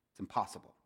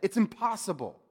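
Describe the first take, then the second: First: Said in the usual way. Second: It's impossible, punched higher and louder; emphatic repeat. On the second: Real, not acted. Preacher driving the point home, It's impossible said emphatically.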